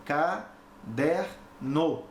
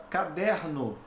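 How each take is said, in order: First: Caderno said slowly as ca-der-no, each syllable apart; split into syllables. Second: Said in the usual way. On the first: Shown as a demonstration. Teacher showing students the three syllables, slowly split. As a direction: break caderno into three clear beats, ca, der, no. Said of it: "aqui eu tenho três sílabas". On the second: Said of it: "eu tenho três emissões de voz".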